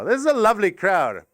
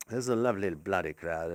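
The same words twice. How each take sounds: First: Said in the usual way. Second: Lower, quicker character voice; put-on voice. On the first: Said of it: "said plainly, then in a voice". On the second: Shown as a demonstration. Comic praising the crowd in a silly put-on voice. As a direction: rattle it off in a silly voice. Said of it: "Do you do that thing".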